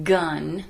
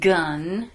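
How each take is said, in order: No difference in how they are said.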